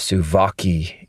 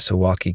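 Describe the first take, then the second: First: The name is pronounced with a Polish accent. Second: The name is pronounced with an American accent. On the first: "if you pronounce it the Polish way" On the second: "I'm going to pronounce it the American way"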